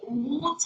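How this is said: It is said in a British accent.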